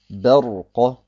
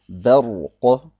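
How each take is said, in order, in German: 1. Das b klingt hell und klar. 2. Das b klingt hell und klar.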